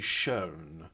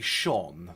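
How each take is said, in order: First: The vowel is long, like in 'show'. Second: The vowel is short, like in 'gone'. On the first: The speaker calls it wrong. "Is this like a Yankee thing? they have to say shown" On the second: The speaker calls it right. "They can't say shone"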